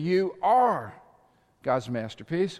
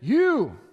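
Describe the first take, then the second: First: The stress is on "are". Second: The stress is on "You".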